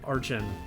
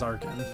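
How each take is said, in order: First: The middle consonant is a 'ch' sound. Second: The middle consonant is a 'k' sound. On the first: "however you prefer to pronounce it" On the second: "I'm pretty sure the correct way is Arkin"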